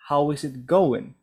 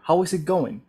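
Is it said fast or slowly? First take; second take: slowly; fast. First: It is said slowly, words kept apart. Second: It is said fast, words run together.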